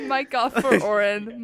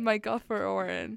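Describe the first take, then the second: First: Loud joking order; mock command. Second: Said in the usual way. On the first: Joking call to cut mic.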